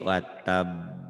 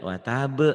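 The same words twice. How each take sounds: First: The final sound comes late and drawn out. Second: The final sound snaps out right away. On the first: The speaker calls it wrong. "Jangan telat ya. Jangan dicicil" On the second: The speaker calls it right.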